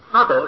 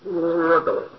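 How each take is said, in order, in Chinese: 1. 第一个音节念“a”。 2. 第一个音节念“o”。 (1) "应该念阿" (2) "你喊都喊不清"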